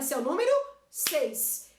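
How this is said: Seis is said together as one syllable. The speaker calls it right. "Se eu falar junto, numa palma só"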